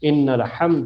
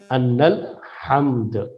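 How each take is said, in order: First: The first word begins with an 'i' vowel. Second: The first word begins with an 'a' vowel. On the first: It opens a new sentence, with stronger emphasis. "हमजे के कसरे के साथ इन्ना पढ़ा करते थे" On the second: It ties the phrase to the sentence before it. "वो अन्ना पढ़ते थे"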